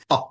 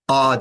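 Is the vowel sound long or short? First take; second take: short; long. First: The vowel is clipped very short. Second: The vowel is drawn out long. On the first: The speaker calls it right. "kısa çünkü" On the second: The speaker calls it wrong. "a değil"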